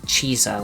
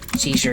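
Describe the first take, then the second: First: The name begins with a ch sound. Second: The name begins with a soft s sound. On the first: This is the church Latin pronunciation. "like a C H sound" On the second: This is the modern everyday pronunciation. "His name was not pronounced that way"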